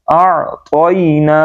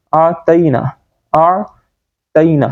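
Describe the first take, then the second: First: "اعطینا" slow with thick, rounded t; heavy t. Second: "اعطینا" with a light t after the first syllable; wrong thin t. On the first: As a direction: draw out "اعطینا" with a full-mouthed to. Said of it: "اس کو موٹا پڑھیں گے". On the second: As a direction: say "اعطینا" with plain te. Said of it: "ہم یہ پڑھ دیتے ہیں". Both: Shown as a demonstration.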